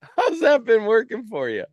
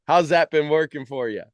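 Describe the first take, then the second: First: Higher, louder, pointed "How's that been working for you?" with a mocking lift; teasing mock challenge; sarcastic jab. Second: Said in the usual way. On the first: Shown as a demonstration. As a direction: needle them with the question.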